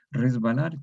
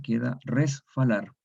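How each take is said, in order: First: Said in the usual way. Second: Resfalar: the B voiced as F, res-fa-lar. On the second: Shown as a demonstration. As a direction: say resfalar, F in place of B. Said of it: "en vez de resbalar".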